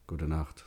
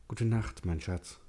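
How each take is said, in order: First: Dave's goodnight. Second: Higher, gentle woman's goodnight; Sally's goodnight. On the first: Dave answers, own voice. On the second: Wife wishes her husband good night, higher. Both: A narrator's reading.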